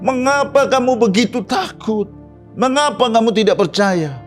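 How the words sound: It is said in an angry tone.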